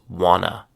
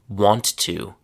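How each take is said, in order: First: The words blend into one short reduced word. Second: Both words are said fully and separately.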